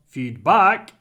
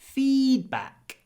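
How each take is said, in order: First: The stress is on the second syllable. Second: The stress is on the first syllable. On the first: The speaker calls it wrong. "it's not feedback" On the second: The speaker calls it right. "You really need to stretch the feed"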